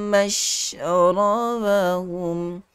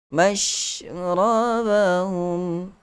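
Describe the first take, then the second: The two takes are said the same way.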